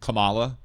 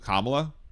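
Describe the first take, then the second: First: It is said like the wrestler's name. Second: It is said the way the name is meant. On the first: The speaker calls it wrong. "you believe that any spelling of that combination of letters is pronounced Kamala" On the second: The speaker calls it right. "instead of Kamala"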